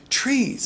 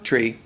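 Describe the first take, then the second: First: The word is said with lively, expressive feeling. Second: The word is said flat, without feeling. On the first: The speaker feels the living thing behind the word. The speaker calls it right. "it's like an expression" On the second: The word is just a plain label. The speaker calls it wrong.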